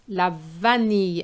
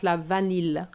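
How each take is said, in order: First: The ending sounds like the ending of fille. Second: The ending differs from the ending of fille. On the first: The speaker calls it right. "which is the same E like fille" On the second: The speaker calls it wrong. "and not la vanille"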